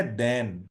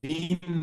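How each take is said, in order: First: دین said as "dayn" with a clear ay diphthong; teacher models دین as "dayn", not "deen"; correct pronunciation. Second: دین said as "deen" with a long ee; teacher mimics the mistaken "deen" for دین; wrong pronunciation. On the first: Teacher shows the class the right way to say دین, carefully. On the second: Teacher shows students the wrong way to say دین, contrasting. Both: Shown as a demonstration. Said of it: "دین نہیں ہے".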